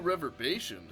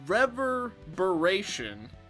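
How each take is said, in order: First: It sounds like the two words river basin. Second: It sounds like the single word reverberation. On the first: The speaker calls it wrong. "I don't think I said that correctly" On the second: The speaker calls it right. "I think I'm saying it right now"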